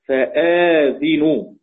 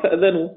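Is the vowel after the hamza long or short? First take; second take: long; short. First: A long vowel follows the hamza; the z takes i. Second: No long vowel follows the hamza; the z takes a. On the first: "بالمد بعد الهمز ثم كسر الزاي" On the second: "والباقون طبعا فأذنوا"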